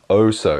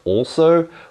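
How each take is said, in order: First: The L sound is dropped entirely. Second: The L sound is clearly pronounced. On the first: The speaker calls it wrong. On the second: The speaker calls it right.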